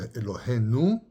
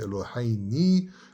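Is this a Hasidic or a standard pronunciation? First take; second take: standard; Hasidic. First: It is said in a standard accent. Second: It is said in a Hasidic accent.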